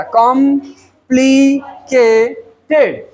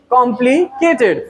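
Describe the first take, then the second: First: complicated very slowly in four beats, कॉम, प्लि, के, टेड; split into syllables. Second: Said in the usual way. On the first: Shown as a demonstration. Teacher counting four syllables in complicated, split apart. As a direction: pause after every syllable of complicated. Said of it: "अब आते हैं four syllable में". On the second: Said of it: "four syllabic word हो गया".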